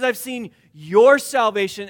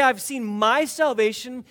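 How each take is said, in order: First: "I've seen your salvation" with your hit loud; stress on YOUR. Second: "I've seen my salvation" with my pressed hard; stress on my. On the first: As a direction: punch the word your. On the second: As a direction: lean into my. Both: Shown as a demonstration. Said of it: "where Simeon puts the emphasis".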